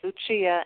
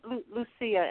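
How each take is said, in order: First: The name is pronounced the Italian way. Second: The name is pronounced the Swedish way. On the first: "Lucia in Italian" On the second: "Lucia in Swedish"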